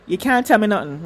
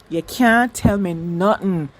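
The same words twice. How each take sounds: First: It is said in the speaker's usual accent. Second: It is said in a Jamaican accent.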